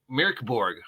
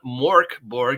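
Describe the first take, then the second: First: The first word sounds close to 'meow'. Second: The first word has an 'or' vowel, like 'more'. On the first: The speaker calls it right. "almost like Meow Borg" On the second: The speaker calls it wrong. "We've been saying it wrong. It's not Mork Borg"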